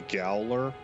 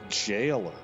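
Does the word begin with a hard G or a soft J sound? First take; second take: hard G; soft J. First: The word begins with a hard G sound. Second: The word begins with a soft J sound. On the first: The speaker calls it wrong. "I used to pronounce that with a hard G" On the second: The speaker calls it right. "it totally makes so much more sense that it would be jailer"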